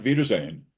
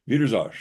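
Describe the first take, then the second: First: "Wiedersehen" with a clear final "-sehn", standard German. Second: "Wiedersehen" ending in an open "-za", the final n swallowed; Austrian Wiedersehen. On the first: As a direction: say "Wiedersehen" the textbook way, ending on "-zeyn". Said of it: "not Wiedersehen". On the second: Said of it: "That's how they say goodbye". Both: Shown as a demonstration.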